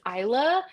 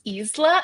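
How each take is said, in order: First: The name is said the common English way. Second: The name is said as the Spanish word. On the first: This is how many readers say the title. The speaker calls it wrong. "a lot of people pronounce it as Isla" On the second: This is how the author says the title. The speaker calls it right. "it is pronounced Isla"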